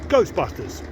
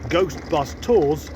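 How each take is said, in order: First: The phrase is said quickly, run together. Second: The phrase is said slowly, word by word.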